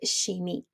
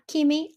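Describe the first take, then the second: First: The first sound is an sh sound. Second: The first sound is not an sh sound. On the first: The speaker calls it right. "It is chimie, ... C H is a sh sound in French" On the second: The speaker calls it wrong. "it's not chimie"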